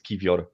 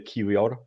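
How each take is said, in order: First: The middle consonant is a V sound. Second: The middle consonant is a W sound. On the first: The speaker calls it right. "in Polish it's read as V" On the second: The speaker calls it wrong. "every English-speaking uh, YouTuber say Kiwior"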